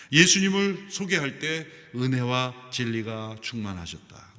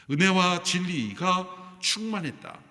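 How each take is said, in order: First: Said in the usual way. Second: 은혜와 진리가 충만했다 said slower, higher and louder, stressing 은혜와; emphatic slow repeat. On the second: Shown as a demonstration. Pastor stressing the church motto, slow and emphatic. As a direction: lean on 은혜와 and draw out the whole phrase.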